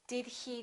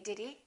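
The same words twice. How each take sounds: First: The h in he is clearly pronounced. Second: The h in he is dropped. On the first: "very carefully and really pronounce things and very formally" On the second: "most Americans just say"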